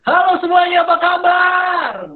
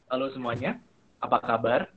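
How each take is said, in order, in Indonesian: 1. Diucapkan dengan nada tinggi dan riang. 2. Diucapkan dengan nada yang lebih rendah dan datar. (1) "Kalau saya ingin mempengaruhi lebih hype, suasananya lebih meriah" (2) "Kan beda"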